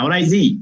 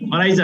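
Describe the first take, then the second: First: The word ends with an 'ee' vowel. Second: The word ends with an 'ah' vowel. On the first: The speaker calls it right. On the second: The speaker calls it wrong. "অরাইজা না"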